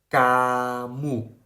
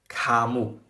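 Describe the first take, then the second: First: The first k is unaspirated, like a soft g. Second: The first k is aspirated with a puff of air. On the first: The speaker calls it right. "我们要读成嘎木" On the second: The speaker calls it wrong. "而不是卡木"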